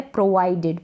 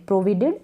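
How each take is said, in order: First: Said in the usual way. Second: प्रोवाइडेड misread as "pro-VI-ded"; the learner's mistake, "provided" with a short i; wrong pronunciation. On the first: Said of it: "ये है प्रोवाइडेड". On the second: Shown as a demonstration. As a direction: say प्रोवाइडेड with "vi" in place of "vai". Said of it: "प्रोवाइडेड ना पढ़ें इसको".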